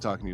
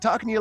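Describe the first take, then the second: First: Spoken in the speaker's own natural voice. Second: Spoken in a squeezed, squinched character voice. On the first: "talking to you like me" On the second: "start squinching up and talking to you like this"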